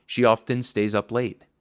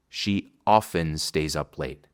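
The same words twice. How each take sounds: First: Often with the T said clearly; T pronounced. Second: Often said as ofen, slow, T dropped; soft T. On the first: Teacher contrasts the T forms. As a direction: say she often with a crisp T. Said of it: "Si se suaviza la T". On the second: Teacher shows the softened T. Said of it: "Si se suaviza la T, se diría así". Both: Shown as a demonstration.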